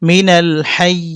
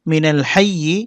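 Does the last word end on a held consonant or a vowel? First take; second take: held consonant; vowel. First: The last word ends on a held, doubled consonant. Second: The last word ends on a short vowel. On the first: The reader stops at this word. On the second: The reading continues without stopping.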